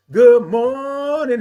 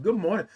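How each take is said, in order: First: Loud, high, slow drawn-out MORNING; big held sing-out good morning; signature good morning. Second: Said in the usual way. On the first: Pretend. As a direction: belt the greeting and stretch the vowel. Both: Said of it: "that's how I say it".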